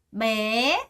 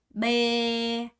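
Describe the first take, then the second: First: The pitch rises on the word. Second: The pitch stays level on the word. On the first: The speaker calls it right. "올라가는 성조가 있어서" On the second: The speaker calls it wrong. "읽을 때는 이렇게 읽으면 안 되겠죠?"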